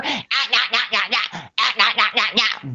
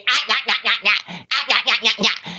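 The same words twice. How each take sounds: First: Quieter mock grunting nah nah; imitating someone who only says nah; mocking babble. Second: Quieter mock nah nah with a laugh; mock repeating nah nah nah; mocking babble. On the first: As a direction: parody their one-word yapping. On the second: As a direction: parody their empty yapping again. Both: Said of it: "don't even know if you even have a fucking vocabulary".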